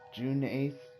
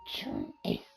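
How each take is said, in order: First: It is said in his normal voice. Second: It is said in a Marge Simpson voice.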